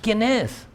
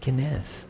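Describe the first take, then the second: First: It is said in a dismissive, disrespectful tone. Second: It is said in a sorrowful, lamenting tone.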